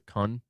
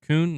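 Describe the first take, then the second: First: The vowel sounds like the one in 'none'. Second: The vowel sounds like the one in 'noon'. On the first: The speaker calls it wrong. "my instinct is to pronounce it Kun, like none" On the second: The speaker calls it right. "it is pronounced Coon"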